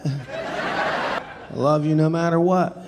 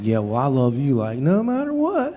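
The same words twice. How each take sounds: First: Drawn out slowly through a laugh; slow giggly drunk repeat. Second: Put-on lightly overdone drunk insistence; insistent repetition. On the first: Retold or imitated. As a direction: stretch it, half laughing. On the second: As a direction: lean on the what, pleading. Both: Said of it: "said it about eighty times".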